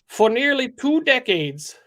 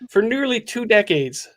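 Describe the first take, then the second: First: It is said in a put-on character voice. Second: It is said in the speaker's natural voice.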